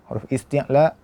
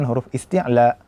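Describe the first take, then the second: Both takes have the same delivery.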